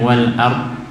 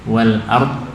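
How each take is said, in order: Both takes have the same delivery.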